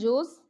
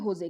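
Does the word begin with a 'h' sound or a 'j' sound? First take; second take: j; h. First: It begins with a 'j' sound. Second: It begins with an 'h' sound. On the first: "इसको वैसे लिखते हैं San जोस" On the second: "लेकिन इसको प्रोनाउंस करते हैं होजे"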